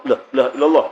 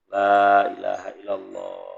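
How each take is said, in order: First: It is said insistently, pressed into the ear. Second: It is said slowly and softly.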